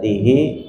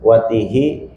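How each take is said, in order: First: The word ends in a long i vowel. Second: The word ends in a short i vowel. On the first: "bil isba'i dengan dibaca panjang" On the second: "bil kasri dengan dibaca kasrah"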